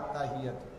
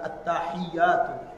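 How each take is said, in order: First: The opening 'att' is weak and not doubled. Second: The opening 'att' is clear with a doubled t. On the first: The speaker calls it wrong. "আত্তাহিয়াতু না, আত উচ্চারণ হলো না" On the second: The speaker calls it right. "শব্দটা আত্তাহিয়াতু"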